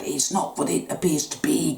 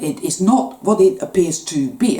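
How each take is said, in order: First: "not" leaned on, the rest dropped much softer; softer reminder to self. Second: Said in the usual way. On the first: Shown as a demonstration. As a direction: repeat it quietly to yourself. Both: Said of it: "I'm going to keep reminding myself of that".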